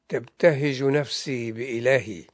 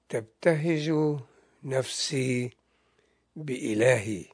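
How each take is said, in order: First: The phrase is read at a normal pace. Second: The phrase is read slowly.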